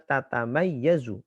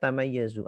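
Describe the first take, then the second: First: The word starts with a doubled 'ta ta' syllable. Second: The word starts with a single 'ta' syllable. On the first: This is a rare, irregular reading. "aliran bacaan yang bacanya tatamayyazu" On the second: This is the commonly used reading. "Kita kan bacanya tamayyazu"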